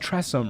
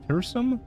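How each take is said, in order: First: The word starts with the sound 'tress'. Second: The word starts with the sound 'ter'. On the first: The speaker calls it right. "Oh, it's Tressum, right" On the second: The speaker calls it wrong. "how do you say that?"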